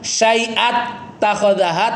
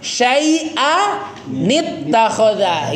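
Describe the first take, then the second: First: The words join with no n sound between them. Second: An extra "nit" sound links the two words. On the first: The speaker calls it wrong. "nggak kan syai'at takhodaha" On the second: The speaker calls it right. "tapi syai'a nit takhoda"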